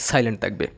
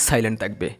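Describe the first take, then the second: Both takes have the same delivery.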